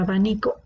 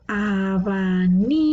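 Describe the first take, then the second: First: Said in the usual way. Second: "Abanico" slowly, a-ba-NI-co, with NI lengthened; split into syllables. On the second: Shown as a demonstration. Teacher working through a word, slow syllables in "Abanico". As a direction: stretch each syllable of "Abanico", leaning on NI. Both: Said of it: "las palabras divididas en sílabas".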